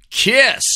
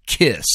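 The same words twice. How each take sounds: First: High mock fanfare. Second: Said in the usual way. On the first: Band name repeated, mock fanfare.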